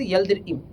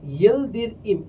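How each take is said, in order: First: ইয়েলদির ইম run together smoothly as one word; joined pronunciation. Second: ইয়েলদির ইম said slowly, ইয়েলদির and ইম kept apart; split pronunciation. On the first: Teacher showing the class ইয়েলদির ইম said as one joined word. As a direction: glide ইয়েলদির into ইম without a break. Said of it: "এটাকে একসাথে উচ্চারণ করবো". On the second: Teacher drilling students on ইয়েলদির ইম, said slowly and apart. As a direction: spell out ইয়েলদির ইম slowly in two parts. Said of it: "এইটুকু একটু উচ্চারণ করবো আলাদা". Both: Shown as a demonstration.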